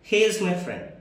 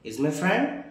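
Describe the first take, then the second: First: It is said as a plain statement. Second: It is said as a question. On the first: It states that he is a friend. "అంటే అతను నా స్నేహితుడు" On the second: It asks whether he is a friend. "ఇది ఒక question"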